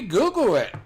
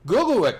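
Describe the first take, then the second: First: High, loud repeated call. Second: High, loud call across the room. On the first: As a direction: call it out again, insisting. Repeats the urging to Cody. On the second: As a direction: call it out to Cody. Urging Cody to search it. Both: Real, not acted.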